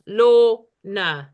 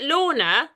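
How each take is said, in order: First: "Lorna" broken into two beats, Lor-na, loud; syllable by syllable. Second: Said in the usual way. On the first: Shown as a demonstration. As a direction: split "Lorna" into two separate emphatic syllables. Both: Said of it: "has two syllables".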